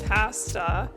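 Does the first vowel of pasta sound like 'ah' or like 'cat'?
cat. The first vowel is a flat 'a' sound. This is how Canadians say it. "instead of"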